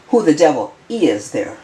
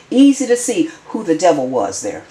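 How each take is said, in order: First: "is" set apart and leaned on; stress on IS. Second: Pointed statement with emphasis on "was"; stress on WAS. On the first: Commentator correcting the tense to the present, stress on "is". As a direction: correct yourself by emphasizing "is". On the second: Commentator judging who the devil was, stress on "was". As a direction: lean on "was" near the end. Restated with a changed verb. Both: Real, not acted.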